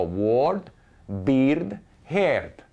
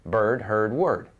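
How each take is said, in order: First: "ward, beard, herd" slow, each vowel read as spelled; foreign mispronunciation. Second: Said in the usual way. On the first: Shown as a demonstration. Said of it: "a lot of foreigners". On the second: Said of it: "they're all pronounced the same".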